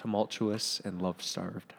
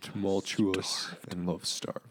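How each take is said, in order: First: It is said at a normal pace and pitch. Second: It is said slowly in a deeper voice.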